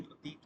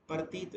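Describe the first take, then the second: First: "प्रतीत" said as pra-teet, p and r joined; standard pronunciation. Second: "प्रतीत" said as par-teet, r after the vowel; colloquial pronunciation. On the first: Teacher giving the Sanskrit form, "प्रतीत" as pra-teet. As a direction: join pr at the start of "प्रतीत". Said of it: "नहीं प्रतीत होता है". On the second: Teacher showing the everyday form, "प्रतीत" as par-teet. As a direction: split the opening pr of "प्रतीत" into par. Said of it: "प्रतीत नहीं प्रतीत होता है". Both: Shown as a demonstration.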